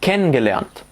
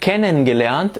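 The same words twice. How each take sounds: First: The en ending of kennen is shortened. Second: The en ending of kennen is fully pronounced. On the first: The speaker calls it right. "قلت" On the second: The speaker calls it wrong. "بدل ما أقول"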